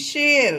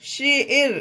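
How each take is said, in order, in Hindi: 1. स्वर 'air' वाली ध्वनि है। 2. स्वर 'air' वाली ध्वनि है।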